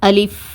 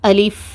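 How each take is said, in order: Both takes have the same delivery.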